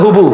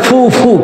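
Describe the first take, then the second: First: The word begins with an h sound. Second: The word begins with an f sound. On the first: This is the regional dialect form of the word. "আমাদের আঞ্চলিক ভাষা কইলে আমরা হুবু" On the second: This is the standard form of the word. "এটা শুদ্ধ ভাষা কয় ফু ফু"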